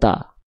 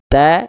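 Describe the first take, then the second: First: The a vowel sounds thick and dark. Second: The a vowel sounds thin and bright. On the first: The speaker calls it wrong. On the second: The speaker calls it right. "buka mulutnya sedikit senyum"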